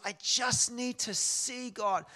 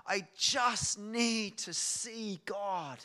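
First: High, loud, slow plea, as if through tears; raised, stretched imitation of tears; imitated tearful plea. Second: Very slow, loud imitated heart cry; imitated cry from the heart, heavily stretched; retold deep heart cry. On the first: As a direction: plead it tearfully, retelling her cry. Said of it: "With through tears". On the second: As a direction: draw every word out in a raised plea. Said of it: "like a deep, deep heart cry".

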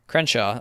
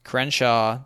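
First: Said in the usual way. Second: A hint of a stern father; trying to be stern. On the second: A narrator's reading. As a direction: say CRENSHAW as a mild warning. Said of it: "like a father trying to be stern".

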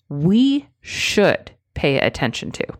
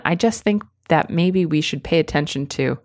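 First: Firm, even statement leading with "We"; more strongly. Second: Hedging. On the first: Coach modelling the strong phrasing. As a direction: state it plainly and firmly. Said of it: "Say it more strongly". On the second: Coach contrasting with the weak phrasing. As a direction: hedge it weakly. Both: Shown as a demonstration.

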